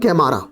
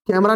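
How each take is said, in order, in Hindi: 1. इसमें बीच की 'maa' ध्वनि लंबी बोली जाती है। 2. इसे अंग्रेज़ी शब्द 'camera' की तरह बोला जाता है। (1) "नहीं कैमारा" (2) "लेंटाना कैमरा नहीं"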